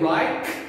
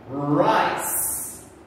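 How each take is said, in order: First: The word is said with a hard K sound. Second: The word is said with a soft S sound. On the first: The speaker calls it wrong. "We do not say Reich" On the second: The speaker calls it right. "that is when we make the S sound"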